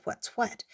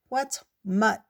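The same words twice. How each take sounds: First: Said in the usual way. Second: "What's mutt?" muffled into the dirt so "what" comes out as "mutt"; face in the dirt. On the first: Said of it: "He actually said". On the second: A narrator's reading. Ant with face in the dirt asks, muffled "mutt". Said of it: "it sounded like mutt".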